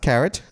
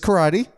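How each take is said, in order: First: It has two syllables, like the vegetable carrot. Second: It has three syllables, ending in a 'tee' sound. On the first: The speaker calls it wrong. "not carrot" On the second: The speaker calls it right. "obviously, this is karate"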